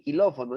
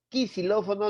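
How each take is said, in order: First: The word begins with a k sound. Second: The word begins with a ks sound. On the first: "ni quilófono" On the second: "Acá no dice quisilófono"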